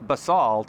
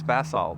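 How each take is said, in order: First: The word is said the American way. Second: The word is said the British way. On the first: "in the U S it's basalt" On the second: "in the U K it's basalt"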